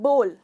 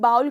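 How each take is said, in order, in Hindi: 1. स्वर 'go' में 'oh' जैसा लगता है। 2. स्वर 'cow' में 'ow' जैसा लगता है। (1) "इसका सही प्रोनाउंसिएशन है बोल" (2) "ये बिल्कुल गलत प्रोनाउंसिएशन है"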